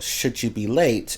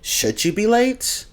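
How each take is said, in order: First: The voice falls at the end, like a statement. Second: The voice rises at the end, like a question. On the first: It is a conditional statement, not a question. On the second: It is asking a question.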